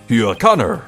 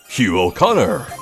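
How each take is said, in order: First: It is said quickly, running together. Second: It is yelled angrily at normal speed.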